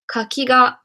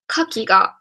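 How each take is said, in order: First: There is no pitch accent on any syllable. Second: The pitch accent falls on the first syllable. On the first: It means persimmon. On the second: It means oyster. "Initial accented"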